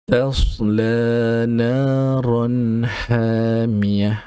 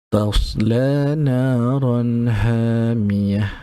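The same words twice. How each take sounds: The two takes are said the same way.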